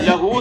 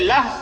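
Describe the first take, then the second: First: The word ends with a long vowel sound. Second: The word ends on a bare consonant sound. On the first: The reading continues past this word. "हालत वसल में लहू पढ़ेंगे" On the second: The reader stops on this word. "हालत वक्फ में लहू नहीं बल्कि लह"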